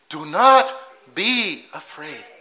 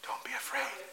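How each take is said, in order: First: Slowed right down, each word "not" weighted; slow firm reassurance. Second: Much softer, as if soothing a scared man; gentle reassurance. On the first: Jesus insisting Peter need not fear, slow and firm. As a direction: lean on "not", deliberately slow. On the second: Jesus calming frightened Peter, softly reassuring. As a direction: hush his fear, tenderly. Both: Retold or imitated.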